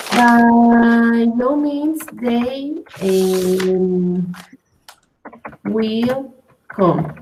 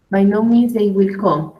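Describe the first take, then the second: First: Very slow, word by word; slow example. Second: Said in the usual way. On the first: Shown as a demonstration. Teacher gives a student a slow example sentence, slow and deliberate. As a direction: spell the example out slowly for the student. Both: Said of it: "for example".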